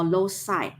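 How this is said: It is said with an American English pronunciation. "in American English"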